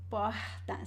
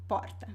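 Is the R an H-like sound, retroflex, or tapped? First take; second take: H-like; tapped. First: The R is breathy, like an English H. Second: The R is a quick vibrating tap. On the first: This is how people from Rio de Janeiro speak. "it is more aspirated... similar to the sound of the H in English" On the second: This is how people in the city of São Paulo speak. "So usually we say porta"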